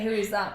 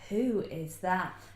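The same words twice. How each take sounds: First: It sounds appalled and disbelieving. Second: It sounds admiring and smitten.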